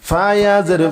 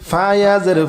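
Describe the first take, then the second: Both takes have the same delivery.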